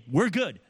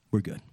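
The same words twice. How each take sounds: First: Breezy mock "We're good", pitched up; dismissive. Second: Reassuring. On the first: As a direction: brush it off like nothing happened. Avoider brushing off the conflict. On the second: Real, not acted. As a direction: settle it gently, meaning it. Pastor reassuring about peace.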